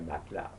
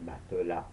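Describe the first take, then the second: First: The middle E is silent. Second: The middle E is pronounced as a vowel. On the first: The speaker is from elsewhere in France. "not a matelas" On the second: The speaker is from Provence. "they sleep on a matelas"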